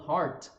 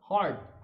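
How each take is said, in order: First: The final t is clearly pronounced and released. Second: The final t is stopped without being released. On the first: "como eu falei antes" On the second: "sem pronunciar o T tão marcadinho assim no final"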